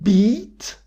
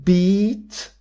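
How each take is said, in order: No difference in how they are said.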